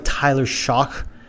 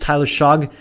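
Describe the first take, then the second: First: The surname ends with a k sound. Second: The surname ends with a g sound. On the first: "it sounds like Tyler Shock" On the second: "I think it's Tyler Shog"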